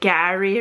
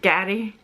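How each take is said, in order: First: The middle R is soft, not tapped. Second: The middle R is a quick tap. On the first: The speaker calls it wrong. "I say it like Gary" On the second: The speaker calls it right. "rather than Gary, which I probably should say it like"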